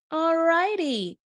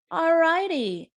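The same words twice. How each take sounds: The two takes are said the same way.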